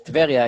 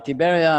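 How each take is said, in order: First: "Tveria" said the Hebrew way, tve-RI-a, no vowel after T; Hebrew name. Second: "Tiberia" said the English way, ti-BE-ria; anglicized name. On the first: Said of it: "No, uh, Tiberia". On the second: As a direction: say "Tiberia" as English speakers do, with the i after T. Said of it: "it's, uh, Tveria". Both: Shown as a demonstration.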